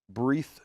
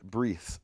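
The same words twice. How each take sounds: First: The word ends with a th sound. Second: The word ends with an s sound. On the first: "When it doesn't have a dot, it's a th" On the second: "or in some dialects, s"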